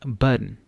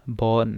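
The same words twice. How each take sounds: First: बर्न with an er vowel, like burn; common mispronunciation. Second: बॉर्न with a long open aw, like born; correct pronunciation. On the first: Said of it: "इसको बर्न पढ़ते हैं लोग". (बर्न गलत उच्चारण, बर्न जैसा) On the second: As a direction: say बॉर्न with a clear aw sound. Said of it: "बॉर्न है ये". (बॉर्न सही उच्चारण, ऑ की आवाज़ के साथ) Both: Shown as a demonstration.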